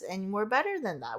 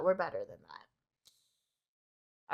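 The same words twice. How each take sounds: First: Said in the usual way. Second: Much lower, slow, drawn-out repeat of the line; deep slow echo. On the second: Shown as a demonstration. Repeating her own line to viewers in a deep slow voice. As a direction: drop the voice way down and stretch it.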